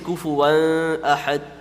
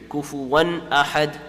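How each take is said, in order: First: The n sound is blurred into the next word. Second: The n sound is pronounced fully and clearly. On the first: The speaker calls it wrong. "You don't say kufuwan ahad. You don't say that" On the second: The speaker calls it right. "Make it very apparent and very clear"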